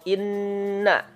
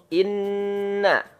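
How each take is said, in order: Both takes have the same delivery.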